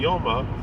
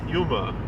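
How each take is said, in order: First: The first vowel is an 'oh' sound. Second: The first vowel is an 'oo' sound. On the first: The speaker calls it right. "it's really supposed to be Yoma" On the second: The speaker calls it wrong. "everyone pronounces it Yuma"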